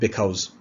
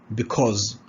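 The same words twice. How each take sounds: First: The second vowel is not a short O. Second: The second vowel is a short O. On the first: The speaker calls it wrong. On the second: The speaker calls it right.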